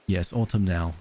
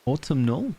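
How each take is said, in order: First: "autumnal" settled with a falling tune; confirming autumnal. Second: "Autumnal?" asked with a high rising tune; questioning autumnal. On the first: Agreeing on the word, says it with a settled fall. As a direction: land "autumnal" firmly, falling at the end. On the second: Unsure of the new word, asks it with a rise. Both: Shown as a demonstration.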